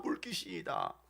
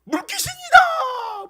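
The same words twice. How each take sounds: First: Low, hushed throwaway repeat; quiet repeat. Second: Very high, loud, drawn-out scream of alarm; terrified cry. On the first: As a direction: drop it to a soft aside. Same cry repeated in low aside. (낮고 작게 툭 되뇌듯) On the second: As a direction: shriek it like you've seen a ghost. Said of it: "생각하고 소리쳤다". (물귀신을 본 듯 높게 길게 비명) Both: Acted.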